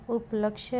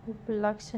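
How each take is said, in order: First: उपलक्ष्य said as up-laksh-ye; correct pronunciation. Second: उपलक्ष्य cut to up-laksh, no y; wrong pronunciation. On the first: Teacher giving the correction, उपलक्ष्य with final ya. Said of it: "होगा". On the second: Teacher showing a spelling error, उपलक्ष्य as up-laksh. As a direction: end उपलक्ष्य on the sh. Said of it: "नहीं". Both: Shown as a demonstration.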